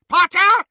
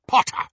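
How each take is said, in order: First: Very high, loud shriek. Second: Loud, emphatic revelation of a name; triumphant cry. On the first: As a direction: scream the name in shock. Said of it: "shrieked Bellatrix". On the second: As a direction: announce the prize, loudly. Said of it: "cried Lucius". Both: A narrator's reading.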